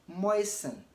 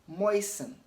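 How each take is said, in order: The two takes are said the same way.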